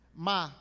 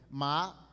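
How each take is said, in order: First: Ma is said with the tone meaning curse. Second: Ma is said with the tone meaning plant. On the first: The word means to curse. "ma maldizer" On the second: The word means a plant. "ma planta"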